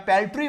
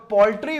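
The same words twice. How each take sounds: First: पेल्ट्री said with an "e" in the first syllable; alternative pronunciation. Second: पोल्ट्री said with an "o" in the first syllable; first pronunciation variant. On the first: Teacher offering class the other form, पेल्ट्री pronounced with "pel". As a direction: say पेल्ट्री starting "pal" or "pel", unrounded vowel. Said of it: "या पेल्ट्री word है". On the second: Teacher offering class one of two forms, पोल्ट्री pronounced with "pol". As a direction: say पोल्ट्री starting "pol", rounded vowel. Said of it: "पोल्ट्री word है या पेल्ट्री word है".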